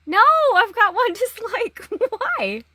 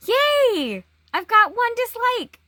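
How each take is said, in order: First: High, loud wail with a laugh in it; mock dismay. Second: High, loud cheer of mock delight; mock celebration. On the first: Vlogger bemoaning a first dislike, mock-dismayed. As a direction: lament it in hammed-up dismay. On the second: Vlogger announcing a first dislike, mock-celebrating. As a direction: celebrate it like a hammed-up win.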